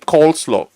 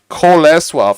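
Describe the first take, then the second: First: It is said with an English pronunciation. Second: It is said with a Polish pronunciation. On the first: "I say coleslaw, like as a joke to my mother" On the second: "So in Poland, uh, you say, okay, I would like to order one Kolesław"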